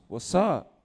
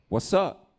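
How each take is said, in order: First: Higher, louder challenge back; mock challenge back. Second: Higher, louder street challenge; mock challenge. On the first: Other fool answering the challenge, higher. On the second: One guy squaring up to another, higher challenge. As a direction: throw it at him higher as a challenge.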